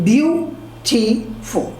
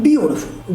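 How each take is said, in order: First: "beautiful" slowly split into three syllables, beau-ti-ful; very slow, separated syllables in "beautiful". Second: Said in the usual way. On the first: Shown as a demonstration. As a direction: break "beautiful" into beau, ti, ful with clear gaps. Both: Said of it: "there are three syllables in a word".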